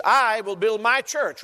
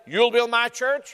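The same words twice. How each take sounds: First: "I will build my church" with I stressed. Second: "You'll build my church" with You'll lifted and rising; stress on You'll. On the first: Preacher to church: I of "I will build my church" stressed. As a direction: lean on I, the one who builds. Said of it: "Remember, he did not say". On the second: Preacher contrasting with Jesus: You'll stressed, rising. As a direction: hit You'll as the wrong builder. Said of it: "he did not say". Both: Shown as a demonstration.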